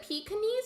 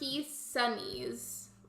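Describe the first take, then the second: First: The middle consonant is a K sound. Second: The middle consonant is an S sound. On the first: "a K sound" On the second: "Like an S"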